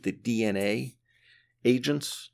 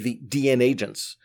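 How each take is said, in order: First: A separate letter A comes before Agents. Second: The A is heard only within Agents. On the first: The speaker calls it wrong. "a lot of people pronounce it the DNA Agents" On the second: The speaker calls it right. "So I say the DN Agents"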